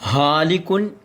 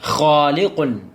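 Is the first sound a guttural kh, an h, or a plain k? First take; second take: h; guttural kh. First: It begins with a soft breathy h sound. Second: It begins with a rough sound from the throat. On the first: The speaker calls it wrong. "എന്ന് പറഞ്ഞാലും തെറ്റിപ്പോകും" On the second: The speaker calls it right. "ഖ"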